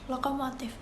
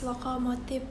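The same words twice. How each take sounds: First: The word ends with an F-like sound. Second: The word ends with a P sound.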